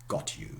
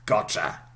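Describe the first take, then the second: First: The 't' and 'y' stay separate. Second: The 't' and 'y' merge into 'ch'.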